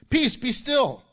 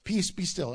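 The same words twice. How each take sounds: First: Raised, higher-pitched command; yelled rebuke. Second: Said in the usual way. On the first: Retold or imitated. Preacher quoting Jesus to the wind, raised rebuking voice. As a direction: rebuke it with a mild yell. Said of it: "He yells that". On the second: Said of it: "rebuked the wind and said".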